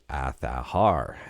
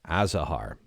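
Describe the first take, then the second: First: The middle consonant is not a Z sound. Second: The middle consonant is a clear Z sound. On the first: "they say it's pronounced Athahar" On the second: "pronounce the Z, as in Azahar"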